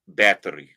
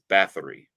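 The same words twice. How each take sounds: First: It is said with a Hungarian pronunciation. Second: It is said with an American pronunciation. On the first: "but in Hungarian, it's" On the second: "what we Americans would call"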